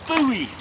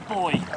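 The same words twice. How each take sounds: First: It is said as two syllables, 'boo-ee'. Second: It is said as one syllable, 'boy'.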